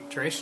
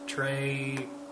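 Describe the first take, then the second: First: The word ends with an s sound. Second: The word ends on a vowel sound.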